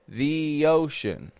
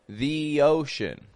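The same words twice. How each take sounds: First: 'The' has a long E with a Y glide. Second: 'The' has a long E with a Y glide.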